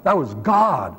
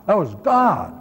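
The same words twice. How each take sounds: First: Said in the usual way. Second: God stressed, a bit higher; repeated with weight on God; emphatic repeat. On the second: Shown as a demonstration. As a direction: drive home the word God.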